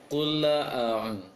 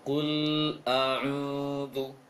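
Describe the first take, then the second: First: The l bounces with a short added vowel. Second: The l flows smoothly into the next word. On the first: The speaker calls it wrong. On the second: The speaker calls it right. "Seharusnya dialirkan suara lam"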